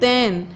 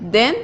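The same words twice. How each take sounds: First: THEN with its vowel stretched a little, as in "than"; drawn-out THAN. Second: THEN said at once with a short vowel. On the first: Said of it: "then को थोड़ा सा खींच के बोलते". (THEN को थोड़ा सा खींच के बोलें) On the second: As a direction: say THEN briefly, without stretching it. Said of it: "then को एकदम से प्रोनाउंसिएशन हम इसका कर देते हैं". (THEN को छोटा, एकदम से बोलें) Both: Shown as a demonstration.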